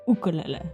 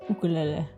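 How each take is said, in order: Both takes have the same delivery.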